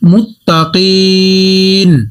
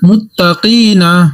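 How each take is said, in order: First: The word stops short without the final vowel. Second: The word ends with its full final syllable.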